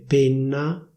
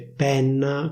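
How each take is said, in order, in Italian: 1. La vocale E è chiusa. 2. La vocale E è aperta. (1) "La pronuncia ufficiale sarebbe" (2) "a Milano si dice penna con la E aperta"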